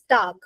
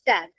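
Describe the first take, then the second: First: The vowel is a long open 'ah' sound. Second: The vowel is a short English 'a' sound. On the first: It means day. The speaker calls it right. "Here it is tag. Tag means day" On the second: It names the label on clothes. The speaker calls it wrong. "you will not say tag. Tag is like uh, suppose we have on our clothes"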